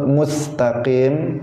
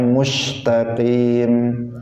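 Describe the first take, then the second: First: The s in mustaqim is a thin plain s. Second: The s in mustaqim sounds like sh. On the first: The speaker calls it right. "harusnya dibaca tipis karena sin" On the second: The speaker calls it wrong. "sin itu sering dibaca dengan shin"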